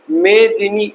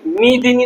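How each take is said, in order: First: The first vowel sounds like 'ay', one word. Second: The first vowel sounds like 'ee', split apart. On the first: It means on this earth. The speaker calls it right. "काय बोलायचं आहे आपल्याला, मेदिनी" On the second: It means I and poor. The speaker calls it wrong. "मी दिनी नाही, आपण काय म्हणतो सर्व मी दिनी म्हणतो"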